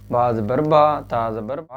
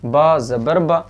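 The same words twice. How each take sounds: First: बा ज़बर बा with final बा pulled long; dragged vowel. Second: बा ज़बर बा with a quick final बा; short vowel. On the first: Teacher imitates people's mistake, final बा dragged out. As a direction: stretch the closing vowel of बा. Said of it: "लोग इसको खींच देते हैं". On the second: Teacher models correct reading, final बा kept short. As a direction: release the last बा briefly, no dragging. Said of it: "बस थोड़ा सा". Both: Shown as a demonstration.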